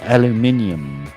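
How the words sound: It is said the British way, five syllables.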